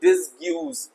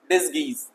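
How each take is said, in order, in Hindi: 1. g के बाद 'yoo' ध्वनि आती है। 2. g के बाद कोई 'yoo' ध्वनि नहीं आती। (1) "यू बिल्कुल साइलेंट है तो प्लीज डोंट रीड इट और प्रोनाउंसिएट इट डिसग्यूज" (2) "नो, डिसगीज"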